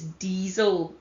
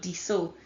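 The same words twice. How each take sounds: First: The middle consonant is a buzzing Z sound. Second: The middle consonant is a hissing S sound. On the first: The speaker calls it right. "it's diesel. It's a Z sound" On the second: The speaker calls it wrong. "It's not diesel"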